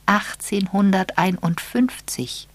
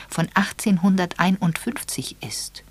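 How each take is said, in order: First: Slow, weighty "Achtzehnhunderteinundfünfzig"; with emphasis. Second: Said in the usual way. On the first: Acted. Miss Marple repeats the date for the young couple, slow and emphatic. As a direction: land "Achtzehnhunderteinundfünfzig" slowly and firmly. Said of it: "sagte sie dann mit Nachdruck".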